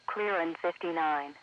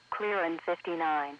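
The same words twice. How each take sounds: The two takes are said the same way.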